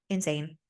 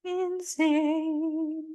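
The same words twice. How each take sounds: First: Said in the usual way. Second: Very high, stretched-out "Insane"; drawn-out high squeal. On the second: Real, not acted. Vlogger reacting to the lovers' drama, high and drawn out. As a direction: draw the word out long on a high held pitch. Exaggerated repeat of her comment.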